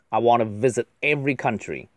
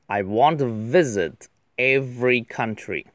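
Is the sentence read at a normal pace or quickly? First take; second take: quickly; normal. First: The sentence is read quickly, like a speech. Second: The sentence is read at a normal pace.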